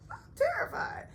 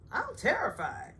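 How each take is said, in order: First: Very high, breathy fake cry; mock sobbing terror. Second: Higher, put-on timid voice; mock scared. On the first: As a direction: wail it like a hammed-up whimper. Ebony's fear mocked, second take. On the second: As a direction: act out Ebony's fright, half-hearted. Ebony's fear mocked.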